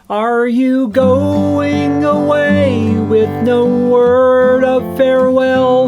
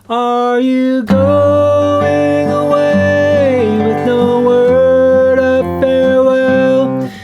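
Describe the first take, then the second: First: Each word ends with a strong consonant closure. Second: The vowels are held open with minimal consonants.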